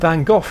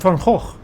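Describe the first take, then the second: First: The name is said the British way, ending in F. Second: The name is said the original purist way. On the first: "for British ears. For some reason the name in the U K seems to end in a double F sound" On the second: "for purists"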